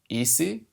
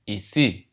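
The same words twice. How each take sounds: First: The stress is on the first syllable. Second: The stress is on the last syllable. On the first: The speaker calls it wrong. "maybe you're pronouncing the word here as ici, but no" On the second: The speaker calls it right. "you put the stress on the last syllable of the word"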